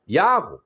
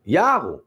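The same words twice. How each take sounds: The two takes are said the same way.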